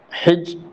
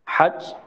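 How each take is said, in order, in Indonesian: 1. Vokal setelah h adalah 'i'. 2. Vokal setelah h adalah 'a'. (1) "dengan kasrah ha" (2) "dengan fathah ha"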